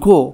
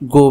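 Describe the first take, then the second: First: The word is said in a commanding tone. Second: The word is said in a flat, neutral tone. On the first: It is an order, a complete sentence. "একটু আদেশের সুরে বলি" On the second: It is just the name of an action. "আমরা যদি এইভাবে বলি তাহলে বাক্যের ভিতরে কিন্তু ভার্বের অর্থটা এইভাবে আসে না"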